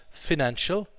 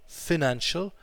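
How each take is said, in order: No difference in how they are said.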